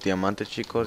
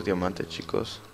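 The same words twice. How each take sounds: First: Said in the usual way. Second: Slow, savouring Diamante, chicos; slow drawn-out repeat. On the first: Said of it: "repite tras gritar". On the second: Real, not acted. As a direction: stretch Diamante, chicos out slowly. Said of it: "repite lento y bajo". (diciendo Diamante, chicos despacio, saboreándolo)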